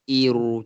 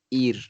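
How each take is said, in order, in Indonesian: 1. Ada vokal tambahan setelah r. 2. Suku kata berakhir pada r tanpa vokal. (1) "bukannya iru macam tu" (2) "Kita akan sebutnya nipis"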